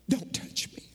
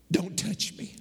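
First: Hushed, breathy whisper of don't touch me. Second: Said in the usual way. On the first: Acted. Jesus to Mary at the tomb, whispered. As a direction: drop to a whisper as if to Mary alone.

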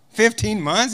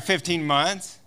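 First: "Fifteen months?" higher with a rising question tune; incredulous question. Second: Said in the usual way. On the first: Retold or imitated. [name] repeating the American's answer, incredulous and higher. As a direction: repeat "Fifteen months?" in disbelief, pitch up at the end.

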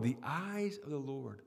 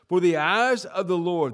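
First: The eyes of the Lord said softly and low; preacher musing quietly on the phrase; soft repeat. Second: For the eyes of the Lord boomed out loud; preacher booming the verse opening; loud emphatic reading. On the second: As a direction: proclaim For the eyes of the Lord loudly. Preacher repeats scripture phrase. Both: Real, not acted.

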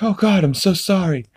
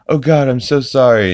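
First: High put-on voice, sorry and awkward; imitating Peter apologizing. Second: A bit higher and louder, still sorry; imitating Peter apologizing. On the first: Dad apologizing to a widow on the phone, high and flustered. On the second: Dad repeating his apology, a little louder. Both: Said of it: "he's like".

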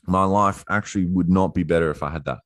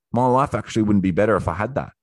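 First: Measured repeat stressing "would not"; emphatic realization. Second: Rushed, slightly higher first take; said fast, as it dawns; quick realization. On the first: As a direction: lean on "not", words spaced out. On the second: Acted realization, said twice differently. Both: Acted.

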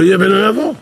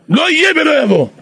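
First: Said in the usual way. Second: "לא יהיה ולא יבוא" high and loud, stress on יהיה; emphatic refusal. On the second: Retold or imitated. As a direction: repeat it as a firm vow, stressing יהיה. ("לא יהיה ולא יבוא" בהדגשה חזקה על יהיה)

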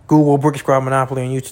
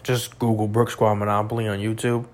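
First: "Google Brick Squad Monopoly on YouTube" said again louder and faster, insisting; emphatic repeat. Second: Said in the usual way. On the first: Shown as a demonstration. Urging viewers to look up the rap group, louder faster insistence. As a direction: hammer the instruction home, quicker and louder.

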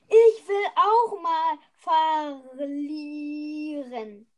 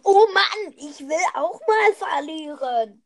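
First: Mock whining. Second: Loud fake whine on Oh Mann; mock whining. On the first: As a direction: fake whine, slowed on verlieren. First take of whine. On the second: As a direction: sulk like a kid. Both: (gespieltes Jammern)

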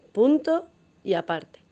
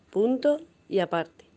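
Both takes have the same delivery.

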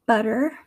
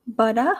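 First: American "butter" ending in er; American accent, r-coloured end on "butter". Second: Aussie "butter" ending in ah; attempted Australian "butter", r dropped; Australian accent, "buttah" for "butter". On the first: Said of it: "in my American accent". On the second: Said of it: "my attempts at an Australian accent". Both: Shown as a demonstration.

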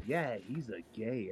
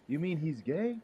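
First: Wrong wording, slow. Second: Said in the usual way. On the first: Retold or imitated. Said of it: "You're saying it all wrong, dude". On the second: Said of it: "You're saying it all wrong".

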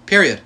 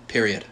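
First: Emphatic. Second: Said in the usual way. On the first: Real, not acted. Repeating the word for emphasis.

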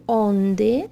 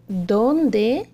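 First: "onde" said the Portuguese way, as the wrong form; "onde" in Portuguese, the word to avoid. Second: "Dónde" with the Spanish d and clear e at the end. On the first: Teacher showing the wrong Portuguese "onde". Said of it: "isso é português". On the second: Teacher modelling correct Spanish "Dónde". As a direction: say "Dónde" the Spanish way, not Portuguese. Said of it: "e não "onde". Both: Shown as a demonstration.

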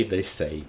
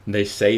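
First: Mocking echo. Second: Mocking. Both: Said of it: "mocked Lenina".

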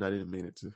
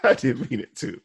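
First: Said in the usual way. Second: Laughing apology. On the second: Real, not acted.

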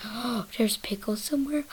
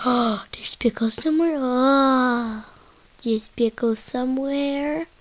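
First: Hushed discovery. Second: Gasping, louder, rising excitement; excited gasp. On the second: Trips out hearing pickle, gasping excitedly. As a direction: gasp and cry it out in delight. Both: Pretend. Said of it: "it kinda trips me out".

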